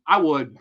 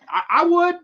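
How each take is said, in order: First: Said in the usual way. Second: Much higher and louder; emphatic repeat. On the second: Real, not acted. Fan insisting he'd take her, high and loud. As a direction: push it up with full conviction. Repeats his answer, building up.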